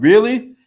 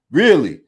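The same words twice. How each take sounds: First: Higher, louder rising disbelief; Really? shot up high and loud; incredulous. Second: Said in the usual way. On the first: Real, not acted. Disbelief at Trump's claim.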